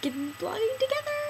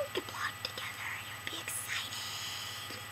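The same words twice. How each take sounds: First: High eager call; excited idea. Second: Breathy whispered echo. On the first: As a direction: pitch it up with eager delight. Excited idea, then echoed. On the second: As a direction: whisper it back like an afterthought. Echo whispered after bright take. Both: Acted.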